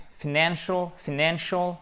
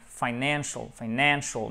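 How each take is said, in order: First: FINANCIAL as "fuh-NAN-shul"; quick, light "f'nancial"; reduced first vowel. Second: FINANCIAL opened with "fine", as "fy-NAN-shul"; preferred "fine-ANcial", falling; full first vowel. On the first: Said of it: "un simple E atténué". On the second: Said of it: "moi je préfère fin". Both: Shown as a demonstration.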